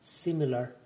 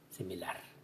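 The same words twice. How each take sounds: First: The stress is on the first syllable. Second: The stress is on the last syllable. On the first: "en inglés esta palabra lleva la acentuación en la primera sílaba" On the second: "y en español en la última"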